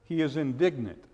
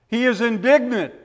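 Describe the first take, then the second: First: Softer, lower echo of He is indignant; quiet repeat. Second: "is" hit high and firm; emphatic stress on is. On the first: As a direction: let it sink, hushed and low. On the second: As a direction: lean hard on "is" in He is indignant. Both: Shown as a demonstration. Repeated with contrasting emphasis.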